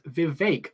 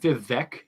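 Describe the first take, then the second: First: The last syllable rhymes with cake. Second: The last syllable does not rhyme with cake. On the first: The speaker calls it right. "it's Vivek, like cake" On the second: The speaker calls it wrong. "It's not Vivek"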